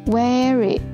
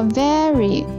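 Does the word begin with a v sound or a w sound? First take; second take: w; v. First: The word begins with a w sound. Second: The word begins with a v sound. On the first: The speaker calls it wrong. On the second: The speaker calls it right.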